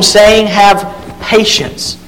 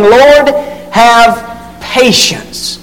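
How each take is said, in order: First: "Have patience" slowed and drawn out; slow emphatic "Have patience"; stress on patience. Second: Patience drawn out slowly, falling; slow, heavy "have patience"; stress on patience. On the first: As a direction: stretch out "Have patience" with a falling tune. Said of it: "That's a key word". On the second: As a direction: lean hard on "have patience". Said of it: "There's a key word". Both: Shown as a demonstration.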